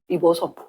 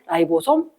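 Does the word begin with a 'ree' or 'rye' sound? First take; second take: ree; rye. First: The first syllable is said as 'ree'. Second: The first syllable is said as 'rye'. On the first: This is the older way people said it. "옛날에는 리보솜이라고 그랬어" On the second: This is the way it is said now. "이제 라이보솜 한다 그랬지?"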